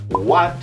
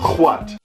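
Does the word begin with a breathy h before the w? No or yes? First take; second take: no; yes. First: It begins with a plain w sound. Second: It begins with a breathy h before w. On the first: The speaker calls it right. "instead of saying what" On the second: The speaker calls it wrong. "pronounce the W H sound as H W"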